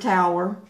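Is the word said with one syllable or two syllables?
two syllables. The word is said with two syllables. This is the usual way to say it. "for tower"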